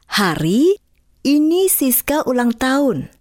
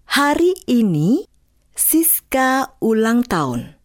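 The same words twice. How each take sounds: First: The pause falls somewhere other than after 'hari ini'. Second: The pause falls right after 'hari ini'. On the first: The speaker calls it wrong. "Jangan diucapkan" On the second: The speaker calls it right. "Jeda yang tepat adalah"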